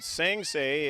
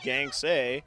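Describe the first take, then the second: First: The name begins with an S sound. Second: The name begins with a G sound. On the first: The speaker calls it wrong. "If I pronounced it Sangsay, it is incorrect" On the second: The speaker calls it right. "It is Gangsay"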